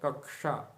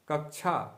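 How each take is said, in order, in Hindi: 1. इस संयुक्त अक्षर का उच्चारण स्पष्ट क और श के साथ होता है। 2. इस संयुक्त अक्षर का उच्चारण ढीले, रोज़मर्रा के तरीके से होता है। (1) "इसका सही उच्चारण है" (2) "व्यवहार में इसको कक्षा कक्षा ऐसा बोल दिया जाता है। तो कक्षा अशुद्ध हो जाएगा"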